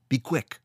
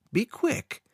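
First: Said in the usual way. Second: Be quick much higher with a sweet rise; false friendly smile in the voice; smiling. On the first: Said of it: "Funglas said". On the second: A narrator's reading. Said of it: "He smiled at the caretaker and said".

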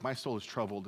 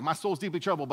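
First: Understated, sincere prayer; earnest prayer. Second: Louder, higher mock New Yorker; badly faked New York accent. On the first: Acted. Jesus praying as at Gethsemane, understated earnest prayer. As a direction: say it as a plain, heartfelt prayer. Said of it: "is it really that prayer like at Gethsemane". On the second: Pastor imagines Jesus as a New Yorker, hammed-up New York accent. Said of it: "like, a New Yorker Jesus".

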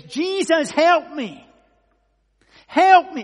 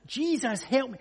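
First: High, full-voiced cry for help; desperate shout. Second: Higher, raised cry for help; insistent shout. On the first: Blind man calling to Jesus as he passes, shouting loudly. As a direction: shout out as if calling over a crowd. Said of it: "And he shouts". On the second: Retold or imitated. Blind man calling past those who shush him, insistent shout. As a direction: call out insistently, short of a full yell. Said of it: "he shouts all the louder".

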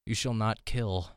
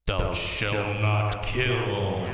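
First: Slow, half-hearted solemn voice; a feeble try at booming; weak commandment voice. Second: Very slow, louder solemn proclamation; booming commandment voice. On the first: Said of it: "That was a pathetic voice". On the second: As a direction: drag every word out, booming. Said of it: "That's awesome". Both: Pretend.

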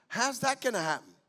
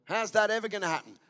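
First: Open, wondering ask; preacher demoing faith; faith-filled version. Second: Fast sceptical scoff; preacher demoing doubt; doubting version. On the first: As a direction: say it expecting an answer. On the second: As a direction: say it with unbelief. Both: Shown as a demonstration. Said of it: "same question can be asked in two ways".

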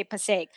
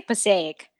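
First: "Passaic" as two beats, "puh-SAKE"; "Passaic" with a short, single "sake" ending; local pronunciation. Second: "Passaic" with a drawn-out last syllable, "puh-SAY-ik"; "Passaic" with three beats; own pronunciation. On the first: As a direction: run the end of "Passaic" into one syllable. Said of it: "apparently they say Passaic". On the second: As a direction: say "Passaic" ending in a separate "ik". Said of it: "I say Passaic". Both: Shown as a demonstration.

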